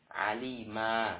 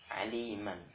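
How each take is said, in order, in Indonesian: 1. Kata ini berakhir dengan vokal panjang. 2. Kata ini berakhir dengan bunyi N yang jelas. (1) "ketika waqaf, nah, alima, ya, baca dengan panjang"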